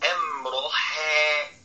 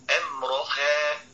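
First: The final ha is overly thinned, almost tilted. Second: The final ha is plain and natural. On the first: The speaker calls it wrong. "ده تكلف" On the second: The speaker calls it right. "دي تمام"

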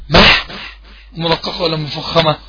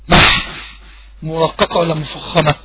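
No difference in how they are said.

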